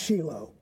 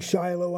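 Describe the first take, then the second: First: The name is said the Hebrew way. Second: The name is said the American English way. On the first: This is the original form of the word. "the word in Hebrew is pronounced Shiloh" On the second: This is the form used growing up in an American church. "we've always grown up saying Shiloh"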